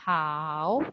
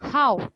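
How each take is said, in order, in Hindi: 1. पिच नीचे जाती है, फिर ऊपर उठती है। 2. पिच तेज़ी से नीचे गिरती है। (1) "अब अगर थर्ड टोन है" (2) "फोर्थ टोन है"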